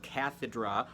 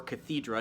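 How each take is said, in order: First: "cathedra" with the stress on the first syllable, CATH-uh-druh; "cathedra" opening on a stressed short-a KATH. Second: "cathedra" with the stress on the second syllable, kuh-THEE-druh; "cathedra" with a long, stressed THEE in the middle. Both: Shown as a demonstration. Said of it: "depending on how you want to pronounce it".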